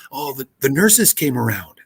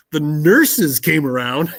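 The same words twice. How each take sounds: First: Said in the usual way. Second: "The nurses came around" said slowly, each word spaced; slow deliberate repeat. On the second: Retold or imitated. Host repeats the caller's odd words slowly, in disbelief. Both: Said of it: "what was that you said?".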